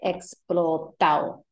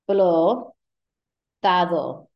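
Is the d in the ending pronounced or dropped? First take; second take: dropped; pronounced. First: The d in the ending is dropped, Puerto Rican style. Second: The d in the ending is clearly pronounced.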